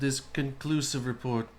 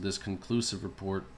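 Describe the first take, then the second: First: It is read in an imitated, put-on voice. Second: It is read in a plain, natural voice.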